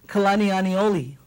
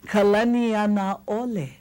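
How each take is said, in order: First: The second name is said as Anioli. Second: The second name is said as Anaole. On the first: The speaker calls it wrong. "we hear Kalani Anioli" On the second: The speaker calls it right. "no, no, no"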